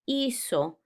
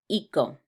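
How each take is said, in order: First: The middle consonant is a soft sound. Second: The middle consonant is a hard k sound. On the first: The speaker calls it right. "Listen to it again now with the Z" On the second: The speaker calls it wrong. "it would have the same sound as it does in English, like co. But that wouldn't sound the same"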